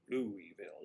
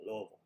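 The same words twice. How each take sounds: First: "Louisville" in three syllables, LOO-ee-vil; "Louisville" with a clear LOO-ee at the start; full pronunciation. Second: "Louisville" shortened to two syllables, LUH-vul; "Louisville" with the middle syllable dropped, LUH-vul; local pronunciation. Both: Shown as a demonstration. Contrasts full and local pronunciation.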